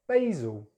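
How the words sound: It is said with an American accent. "then American English"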